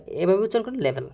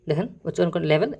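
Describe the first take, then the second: First: লেভেল said clearly as le-vel, ending on a falling tune; showing pronunciation. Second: Said in the usual way. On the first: Shown as a demonstration. Teacher modelling how to say লেভেল, falling tune.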